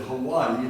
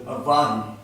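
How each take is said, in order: First: Said in the usual way. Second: "Hawaii" said with a V for the W. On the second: Acted. Husband in a joke argues his version, "Hawaii" with a V sound. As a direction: say "Hawaii" as "Ha-VAH-ee". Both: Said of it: "debating on the proper pronunciation of Hawaii".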